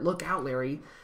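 The phrase is shouted loudly. "shouting part"

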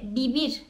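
The word starts with a b sound. This is how it is said in Madrid. "Madrid'de bibir derken"

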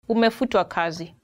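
It is said in a polite, gentle tone.

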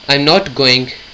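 The stress falls on the word "I'm". Someone else is going, not the speaker. "one meaning, not me. Perhaps you, she or he"

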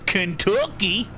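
It is said with a Southern American accent. "put a southern accent on it and say Kentucky"

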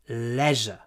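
It is said in a British accent. "We say leisure"

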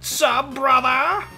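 It is said in a Skeletor voice.

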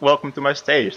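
It is said in the speaker's natural voice.

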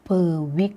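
'Per' is said with an English pronunciation. The speaker calls it wrong. "แต่ภาษาดัตช์ไม่ได้ออก"

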